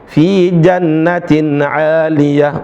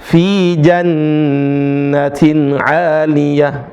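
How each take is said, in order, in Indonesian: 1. Huruf nun yang digandakan dibaca pendek. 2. Huruf nun yang digandakan ditahan dua harakat. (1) "Sebagian teman-teman" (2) "Yang benar"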